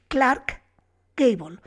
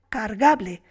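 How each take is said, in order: First: The name is said with its full sounds. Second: The name is run together, dropping the l.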